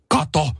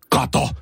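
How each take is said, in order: First: Higher, mild mock yell; retold shout. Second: Higher, excited call to the wife; excited retold exclamation. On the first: Husband calling wife to see, retold shout. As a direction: re-enact an excited shout without full volume. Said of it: "Mä huusin". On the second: Telling wife about the letter, excited retold exclamation. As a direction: call it out, lightly re-enacted. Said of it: "Mä sanoin vaimolle".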